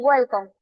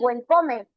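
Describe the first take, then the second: First: It is said with an English-like pronunciation. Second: It is said with a Spanish-influenced pronunciation. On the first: The learner has practiced for a long time. "Ya con el tiempo dicen" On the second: A beginner is still translating from the mother tongue. "Hay personitas que pronuncian"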